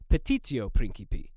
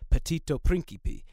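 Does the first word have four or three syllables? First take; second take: four; three. First: The first word has four syllables. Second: The first word has three syllables. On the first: The speaker calls it right. "It's actually petitio principi" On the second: The speaker calls it wrong. "Note the missing I in my original pronunciation"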